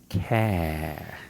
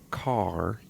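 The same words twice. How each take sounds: First: The final R sound is dropped entirely. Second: The final R sound is clearly pronounced. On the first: "get rid of the R" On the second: "instead of car"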